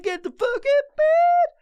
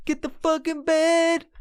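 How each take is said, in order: First: Much higher, louder, slow high-pitched shout; frantic high yell. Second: Rap-style replay. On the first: Retold or imitated. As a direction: shriek it at yourself, dragging it out. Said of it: "I was just like". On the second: Shown as a demonstration. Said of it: "you hear that fucking song? SoundCloud rap artist".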